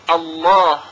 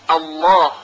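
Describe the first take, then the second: First: The L is pronounced heavy and full. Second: The L is pronounced heavy and full.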